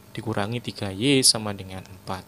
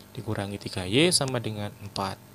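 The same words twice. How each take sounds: Both takes have the same delivery.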